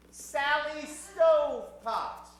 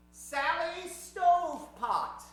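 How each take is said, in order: Both takes have the same delivery.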